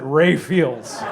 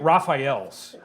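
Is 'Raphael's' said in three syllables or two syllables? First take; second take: two syllables; three syllables. First: The name is squeezed to two syllables, like Ray-fields. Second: The name is said with three full syllables. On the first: This is how people from Wisconsin say it. The speaker calls it wrong. "only because we were in Wisconsin that we pronounced it" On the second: This is the usual way to say the name. The speaker calls it right. "It's Saint Raphael's"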